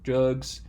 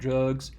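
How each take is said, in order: Both takes have the same delivery.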